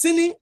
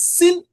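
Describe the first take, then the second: First: "sini" with the final i kept; full "sini", ending on a vowel; disyllabic form. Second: "sin" ending on the nasal; "sin" with the final vowel deleted; monosyllabic form. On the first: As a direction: say "sini" as two syllables. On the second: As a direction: say "sin" higher, as one syllable. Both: Shown as a demonstration.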